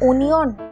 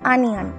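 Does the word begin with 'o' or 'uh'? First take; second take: o; uh. First: The word begins with an 'o' sound. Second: The word begins with an 'uh' sound. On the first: The speaker calls it wrong. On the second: The speaker calls it right.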